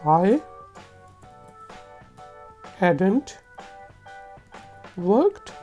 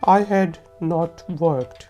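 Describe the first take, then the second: First: Had and not merge into one word. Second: Had and not are both said in full.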